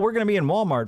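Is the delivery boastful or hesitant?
boastful. It is announced loudly with proud confidence. The news is being proudly proclaimed. "You were just touting it from the mountaintops"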